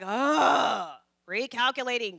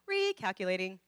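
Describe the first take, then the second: First: It is said in a harsh, impatient tone. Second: It is said in a gentle, reassuring tone. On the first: The speaker is scolding and fed up. The speaker calls it wrong. "The tone of voice is never like" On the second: The speaker is patient and encouraging. The speaker calls it right. "No, it's"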